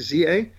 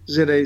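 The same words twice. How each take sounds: First: The letter Z is said as zee. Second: The letter Z is said as zed.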